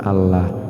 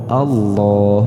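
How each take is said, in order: First: The L is thin, with a light A vowel. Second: The L is thick, with a dark O-like vowel. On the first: The speaker calls it wrong. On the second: The speaker calls it right. "maka kita baca tafhim, artinya tebal"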